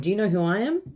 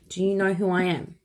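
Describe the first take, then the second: First: It is said in an arrogant, confrontational tone. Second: It is said in a calm, self-assured tone. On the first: The speaker is demanding special treatment because of status. The speaker calls it wrong. "it's not like, oh" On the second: The speaker is expressing self-respect and deserving respect. The speaker calls it right. "It's just like, ... I deserve respect"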